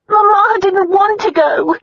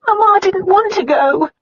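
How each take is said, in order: First: High, slow, sobbing voice; crying. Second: High, sobbing voice; crying. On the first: Sister sobbing to her brother, high and slow. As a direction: cry the words out. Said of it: "Diana cried". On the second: Sister sobbing to her brother, high. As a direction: cry the words out again. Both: A narrator's reading.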